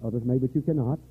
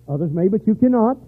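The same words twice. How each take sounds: First: Said in the usual way. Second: "cannot" punched higher and louder; stress on cannot. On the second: Shown as a demonstration. Preacher to a listener, "cannot" hit hard. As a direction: hammer home "cannot". Repeated line, louder second take.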